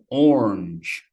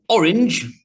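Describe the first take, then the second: First: The word is said with one syllable. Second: The word is said with two syllables. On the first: "just like one syllable" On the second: "orange, the color"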